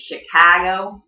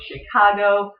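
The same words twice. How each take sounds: First: "Chicago" with a flat A, "shi-KAA-go"; Chicago accent. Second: Said in the usual way. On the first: Shown as a demonstration. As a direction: front the middle vowel of "Chicago", as in "cat". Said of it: "Chicago does have an accent". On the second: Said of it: "So Chicago".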